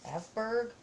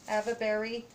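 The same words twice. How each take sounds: First: "Aveberg" tried with a hard g at the end; first try at "Aveberg", with the ending as berg; unsure pronunciation. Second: "Avebury" said AV-uh-berry; "Avebury" in three syllables, AV-uh-bury; second try at the name. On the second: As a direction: corrects herself to "Avebury" with a berry ending. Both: Real, not acted. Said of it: "I'm not saying it right".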